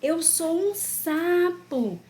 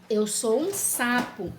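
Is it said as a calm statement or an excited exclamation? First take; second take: excited exclamation; calm statement. First: It is said as an excited, marveling exclamation. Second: It is said as a calm, plain statement. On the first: He is marveling at the fact. "Ele está admirando" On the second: He is stating a fact. "Ele está afirmando"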